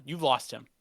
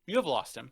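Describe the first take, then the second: First: Said in the usual way. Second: Emphatic restatement leaning on HAVE; stress on HAVE. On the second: Real, not acted. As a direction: HAVE punched in "You have lost him".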